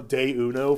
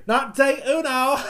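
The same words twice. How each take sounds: First: Mocking ad voice. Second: Laughing through a mock 'day uno', pitched up and loud; laughing mockery. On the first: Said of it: "I just got a little irritated when they said". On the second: Podcaster laughing at the Taco Bell slogan, mock delivery. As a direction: scoff at the slogan while cracking up.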